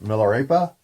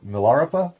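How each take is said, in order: First: "Milarepa" as mil-er-AY-puh; first pronunciation attempt. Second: "Milarepa" as mil-AR-uh-puh; alternative pronunciation attempt. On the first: Reader unsure of a book title, trying "Milarepa" as mil-er-AY-puh. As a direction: say "Milarepa" with a long AY in the stressed third syllable. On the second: Reader unsure of a book title, offering "Milarepa" as mil-AR-uh-puh. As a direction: say "Milarepa" with AR in the second syllable, short uh after it. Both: Shown as a demonstration. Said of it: "I don't know how to say it".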